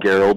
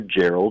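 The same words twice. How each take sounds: First: It begins with a hard G sound. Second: It begins with a soft G sound. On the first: The speaker calls it right. "I've showed them the way of the Hard G" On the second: The speaker calls it wrong. "never Gerald"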